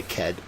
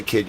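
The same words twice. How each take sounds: First: Put-on Boston accent, kid said as ked with an e vowel. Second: Said in the usual way. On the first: Shown as a demonstration. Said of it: "you say ked with K E H D". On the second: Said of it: "You don't say kid, you say ked".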